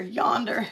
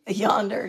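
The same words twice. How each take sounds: First: Yonder said through a laugh. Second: Yonder drawled with a r-coloured end; southern word. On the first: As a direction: repeat yonder giggling. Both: Shown as a demonstration.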